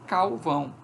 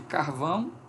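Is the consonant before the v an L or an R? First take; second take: L; R. First: The word is said with an L before v. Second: The word is said with an R before v. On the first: "diz calvão" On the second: "Em vez de"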